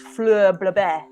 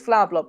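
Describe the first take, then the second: First: The name is said with odd, fancy-sounding vowels. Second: The name is said with ordinary, plain vowels.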